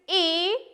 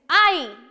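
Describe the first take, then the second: First: The letter is said as a short i sound. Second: The letter is said like the word eye. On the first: "This is I" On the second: "because this is alone and in capital letter"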